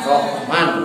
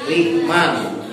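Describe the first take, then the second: First: It has two syllables, with h closing the first. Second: It has two syllables, with i in the first. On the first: This is a lightened form. "dientengkeun ... sukun keun ha patah roh. Jadi dibaca Rohman" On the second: This is the form of a regional dialect. "dikasrahkan ha eran rohnya jadi dibaca rihman"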